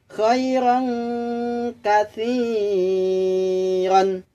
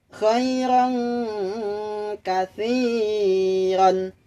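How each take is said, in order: No difference in how they are said.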